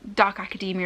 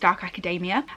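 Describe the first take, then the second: First: Academia is said the widely standard way. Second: Academia is said in a regional way. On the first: This is how others expect it to be said. The speaker calls it right. "I realised I pronounced dark academia as" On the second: This is a local habit of the speaker. The speaker calls it wrong. "a regional thing from where I'm from in the U K"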